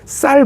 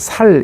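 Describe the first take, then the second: First: The word starts with a tense s sound. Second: The word starts with a plain s sound. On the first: The speaker calls it right. "쌀 발음을 제대로 잘 못한다" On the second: The speaker calls it wrong. "살 이렇게 발음한다"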